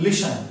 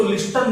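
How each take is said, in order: First: "लिसन" with silent T, lishan; correct listen. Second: "लिस्टन" with the T sounded, list-an; wrong listen. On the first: Teacher corrects after the wrong form, silent T. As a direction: say "लिसन" with no T at all. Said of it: "तो इसको लिस्टन नहीं बोलेंगे". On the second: Teacher shows what we won't say, mispronounced with a T. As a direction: pronounce the T in "लिस्टन". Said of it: "लिस्टन नहीं बोलेंगे". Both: Shown as a demonstration.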